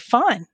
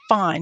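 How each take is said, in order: First: It is said in a pleasant, friendly tone. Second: It is said in a curt, annoyed tone.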